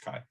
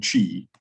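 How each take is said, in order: First: "chi" said softly as KAI, with a hard k; correct Greek-letter pronunciation. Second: "chi" said as CHEE, as written; spelling pronunciation. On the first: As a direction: say "chi" to rhyme with sky, quietly. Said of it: "it's pronounced". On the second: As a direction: say "chi" with a ch as in cheese. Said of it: "it's spelled". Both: Shown as a demonstration.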